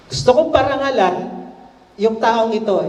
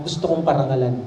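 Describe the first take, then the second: First: Higher, self-important echo; conceited. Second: Said in the usual way. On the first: A narrator's reading. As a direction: savor it as if the honor were his. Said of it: "Eh, syempre, conceited".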